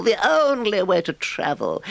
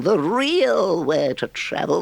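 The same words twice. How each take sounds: First: Only stretched high, falling after; stress on only. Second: Real stretched high with a rising tune; stress on real. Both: Acted.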